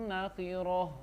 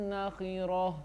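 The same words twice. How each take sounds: No difference in how they are said.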